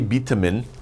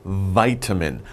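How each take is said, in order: First: It is said with a Korean-English pronunciation. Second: It is said with a standard English pronunciation. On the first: The speaker calls it wrong. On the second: The speaker calls it right.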